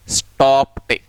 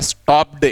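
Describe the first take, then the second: First: स्टॉप्ड ending in a crisp T, as "stopt"; correct T ending. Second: The everyday wrong way: स्टॉप्ड ending in a clear D sound; common wrong way. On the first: Teacher giving students the right form, स्टॉप्ड ending in T. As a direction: finish स्टॉप्ड on a sharp T sound, not D. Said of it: "टे आएगी". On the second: Teacher showing students the common mistake, स्टॉप्ड ending in D. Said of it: "हम generally बोलते हैं". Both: Shown as a demonstration.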